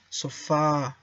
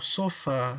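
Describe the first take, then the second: First: The final syllable is stretched out long. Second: The final syllable is short and unstretched. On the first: The speaker calls it right. "diga sofá, como se tu viera dos as" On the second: The speaker calls it wrong. "em vez de dizer sofá ou sofá"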